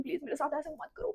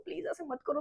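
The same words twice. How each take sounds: First: Soft pleading, करो rising; tearful pleading. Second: Soft pleading, करो falling; tearful pleading. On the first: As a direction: beg softly, ending on a rise. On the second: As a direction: beg softly, let करो drop. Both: Retold or imitated. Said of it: "मैं उसके सामने भी बहुत रो रही हूँ".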